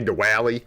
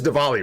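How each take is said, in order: First: The middle consonant is a W sound. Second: The middle consonant is a V sound. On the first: The speaker calls it wrong. "not a W. Not like we would say Diwali" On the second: The speaker calls it right. "You say it like that, something like that. It's like a V sound"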